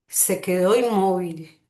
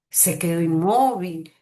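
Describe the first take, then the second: First: The pitch falls at the end. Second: The pitch rises and then falls. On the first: It is a plain statement. "un descenso en la dirección de la voz" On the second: It is an exclamation. "denominado circunflexión"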